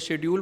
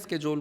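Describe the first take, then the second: First: It starts with 'shed', the British way. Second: It starts with 'sked', the American way.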